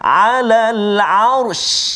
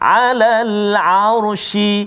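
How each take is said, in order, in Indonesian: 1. Kata berhenti pada bunyi sh tanpa vokal. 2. Sebuah vokal mengikuti bunyi sh di akhir. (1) "kita matikan dia" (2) "kita hidupkan dulu"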